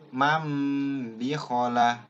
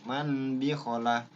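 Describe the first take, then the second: First: The first word ends with an m sound. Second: The first word ends with an n sound. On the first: The reader applies the iqlab rule. The speaker calls it right. "pasti n-nya dirubah menjadi m" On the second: The reader does not recognize the iqlab rule. The speaker calls it wrong. "n mannya masih pakai n"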